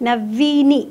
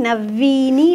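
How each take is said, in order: Both takes have the same delivery.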